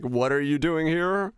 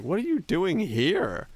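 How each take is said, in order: First: Slow, slightly higher mock disbelief. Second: Higher, slow, drawn-out disbelief; mock astonishment. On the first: Streamer imitating pub strangers questioning his visit, slow mock disbelief. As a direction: drag out the question like a puzzled bar patron. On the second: Streamer imitating locals asking why he came, in drawn-out disbelief. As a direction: stretch it out like a baffled local. Retelling strangers' reaction.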